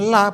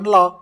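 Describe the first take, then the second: First: The L is light with an open a vowel. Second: The L is dark with a rounded vowel. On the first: The speaker calls it right. "cara bacanya la" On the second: The speaker calls it wrong. "bukan lo"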